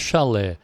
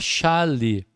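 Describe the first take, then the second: First: The stress is on the last syllable. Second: The stress is on the first syllable. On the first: The speaker calls it wrong. "não é chalé" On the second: The speaker calls it right. "É uma paroxítona terminada em E"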